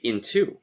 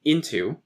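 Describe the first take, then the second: First: "into" stressed on TO, in-TO; second-syllable stress. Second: "into" stressed on IN, IN-to; first-syllable stress. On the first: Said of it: "some people say into". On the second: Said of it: "there's more stress usually on into". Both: Shown as a demonstration.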